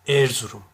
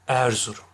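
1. İlk E ünlüsü kapalı. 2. İlk E ünlüsü orta. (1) "Erzurum dersem kapalı telaffuz etmiş olurum" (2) "Orta E olacak"

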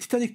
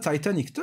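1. Türkçe tarzı bir telaffuzla söylenir. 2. İngilizce tarzı bir telaffuzla söylenir. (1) "Türkçe'ye Titanic diye geçmişti" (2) "İngilizce okunuşunda"

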